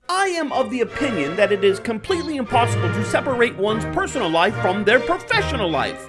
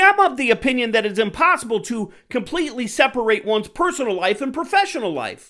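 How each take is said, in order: First: It is said in a posh, distinguished voice. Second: It is said in a plain, casual voice.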